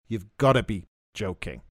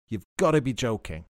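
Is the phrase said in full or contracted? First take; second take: contracted; contracted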